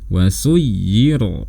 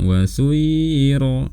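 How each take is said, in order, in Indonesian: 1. Bunyi y yang ganda ditekan keras. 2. Bunyi y yang ganda tidak mendapat tekanan tambahan. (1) "kita harus memberikannya tekanan yang lebih daripada tekanan biasanya"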